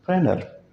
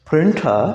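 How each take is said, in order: First: "प्रेनर" with the T dropped after N; higher-pitched "प्रेनर", N straight into the ending; silent T. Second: Said in the usual way. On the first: Shown as a demonstration. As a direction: say "प्रेनर" American-style, no T. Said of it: "टी silent". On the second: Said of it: "प्रिंटा नहीं है ये".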